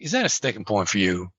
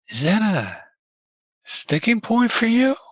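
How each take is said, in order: First: The question sounds harsh and accusing. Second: The question sounds gentle and genuinely curious. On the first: The speaker seems to be calling the listener a name. The speaker calls it wrong. "me saying it in a way that really like" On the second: The speaker is genuinely asking for the listener's view. The speaker calls it right. "Now that feels differently"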